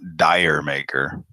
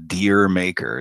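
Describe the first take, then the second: First: The first word sounds like 'dire'. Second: The first word sounds like 'deer'. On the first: The speaker calls it wrong. "It's not Dire Maker. But that's what Americans call it" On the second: The speaker calls it right. "It's it's it's actually Deer Maker"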